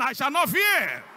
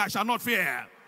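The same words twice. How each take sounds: First: It is shouted loudly. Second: It is said at normal volume.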